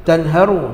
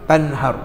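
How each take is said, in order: First: Tanharu said with a clear final u after the r; full original ending. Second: Tanhar said with the final r closed off; silenced ending. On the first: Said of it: "Asalnya tanharu". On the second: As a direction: end Tanhar on a bare r with no vowel after. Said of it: "kenapa kita matikan". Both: Shown as a demonstration.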